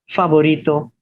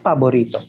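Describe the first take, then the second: First: It has a Spanish F sound. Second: It has a Filipino P for F.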